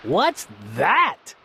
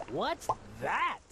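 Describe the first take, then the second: First: Low scornful question; snorting. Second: Much softer alarmed question; startled. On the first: Yertle spots the moon, low scornful snort. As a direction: snort it out in disdain. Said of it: "snorted Yertle". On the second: Yertle feels his throne shake, soft startled question. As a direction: barely breathe it out, shaken. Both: A narrator's reading.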